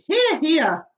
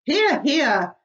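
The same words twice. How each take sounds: First: High, loud hearty cheer; cheering shout. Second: High, loud agreeing cheer; cheering shout. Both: Acted. Creatures cheering the ladybird's words, shouting agreement. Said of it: "they all shouted".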